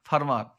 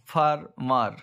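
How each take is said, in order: First: Said in the usual way. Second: ফার্মার split in two, far, mar; syllable by syllable. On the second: Shown as a demonstration. (ফার্মার দুই ভাগে ভেঙে) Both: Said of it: "ডাইসিলেবল মানে দুটো".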